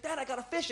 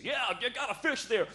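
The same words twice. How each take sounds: First: High-pitched mock kid voice, rising at the end; imitated child's excited announcement to dad; excited little boy. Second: Higher-pitched encouraging dad, falling at the end; imitated proud father's reply; Canadian father. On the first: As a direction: pipe up eagerly like a small boy. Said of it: "the little boy's so excited". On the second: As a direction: answer like a Canadian dad indulging his boy. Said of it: "And he's like".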